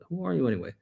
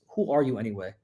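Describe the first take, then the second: First: It sounds reflective, aimed at oneself. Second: It sounds angry, aimed at someone else.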